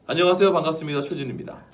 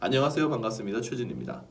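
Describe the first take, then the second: First: The greeting is spoken at a medium volume. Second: The greeting is spoken at a soft volume.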